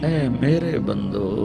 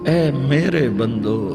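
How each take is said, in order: No difference in how they are said.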